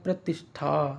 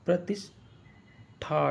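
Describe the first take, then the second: First: Said in the usual way. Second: प्रतिष्ठा drawn out very slowly, syllable by syllable; प्रतिष्ठा stretched out like a teacher dictating; slow syllable drill. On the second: Shown as a demonstration. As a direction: sound out प्रतिष्ठा slowly for spelling. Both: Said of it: "टा नहीं".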